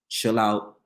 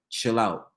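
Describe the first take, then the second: No difference in how they are said.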